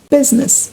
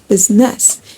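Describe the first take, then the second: First: The stress is on the first syllable. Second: The stress is not on the first syllable. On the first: The speaker calls it right. "the stress is placed on the first syllable of the word business" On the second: The speaker calls it wrong. "and not"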